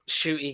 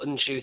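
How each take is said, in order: First: The name begins with a plain sh sound. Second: The name begins with an n sound. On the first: The speaker calls it wrong. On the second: The speaker calls it right.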